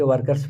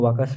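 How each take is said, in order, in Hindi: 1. r की आवाज़ साफ़ बोली जाती है। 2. r की आवाज़ साइलेंट है। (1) "ऐसा नहीं कि वर्कर्स पढ़ेगा" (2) "यहाँ पे आर साइलेंट रहता है"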